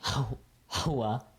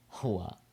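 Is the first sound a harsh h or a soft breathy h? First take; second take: harsh h; soft h. First: The first h sound is harsh and strong. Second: The first h sound is a soft breath. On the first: The speaker calls it wrong. "You don't want to be saying hua" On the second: The speaker calls it right. "it's just a ha"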